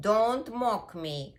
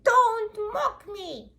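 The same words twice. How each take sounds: First: Slow, louder, firm elephant warning; raised, weighty telling-off; scolding elephant. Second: Very high, loud, slow monkey scolding; squealed monkey warning; indignant monkey. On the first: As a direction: warn slowly like a big offended animal. Elephant scolds the imitating puppy. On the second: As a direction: screech each word slowly, offended. Monkey scolds the imitating puppy. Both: Acted.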